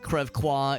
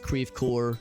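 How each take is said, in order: First: The name is pronounced with French sounds. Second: The name is pronounced with plain American sounds. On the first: The speaker calls it wrong. "It's not Crèvecoeur" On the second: The speaker calls it right. "it's Crèvecoeur. We pronounce our French places like very phonetically"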